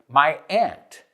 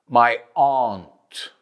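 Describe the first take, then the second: First: Aunt sounds like ant, northeastern US accent. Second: Aunt sounds like ahnt, a posher accent.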